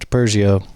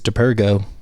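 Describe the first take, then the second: First: It ends with an added 'ee-o' sound. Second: It ends with a plain 'go' sound. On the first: The speaker calls it wrong. "But there's no I" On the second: The speaker calls it right. "It's just DePurgo. Phonetically"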